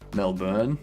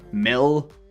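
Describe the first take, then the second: First: The last syllable has a full 'born' vowel. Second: The last syllable sounds between 'bin' and 'ben'. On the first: The speaker calls it wrong. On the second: The speaker calls it right. "It's like a combination of bin and ben"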